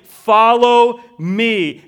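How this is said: The stress is on "follow."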